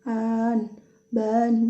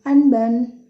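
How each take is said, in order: First: The vowel is drawn out long. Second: The vowel is kept short. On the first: The speaker calls it wrong. "bukan an, ban, bukan seperti itu" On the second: The speaker calls it right. "Bacanya itu nggak panjang"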